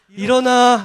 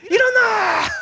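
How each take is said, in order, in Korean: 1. 부드럽고 다정하게 말해요. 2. 사납고 크게 소리쳐요. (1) "부드럽게 하시거나" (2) "맹렬한 호랑이의 소리가 들리죠"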